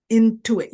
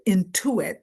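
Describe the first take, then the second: First: Intuit repeated louder and punched; intuit, stressed and louder. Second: Said in the usual way. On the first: Shown as a demonstration. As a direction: hit the word intuit hard the second time. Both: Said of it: "use your intuition".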